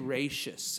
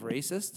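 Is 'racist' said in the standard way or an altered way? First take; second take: altered; standard. First: The word is said with an altered pronunciation. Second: The word is said with its standard pronunciation. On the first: The speaker calls it wrong. "he would say racist instead of" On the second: The speaker calls it right. "correctly pronounced racist"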